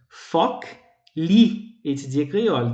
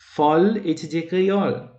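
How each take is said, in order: First: The opening words are said in their full form. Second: The opening words merge into one short syllable.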